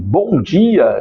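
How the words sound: The greeting sounds warm and smiling.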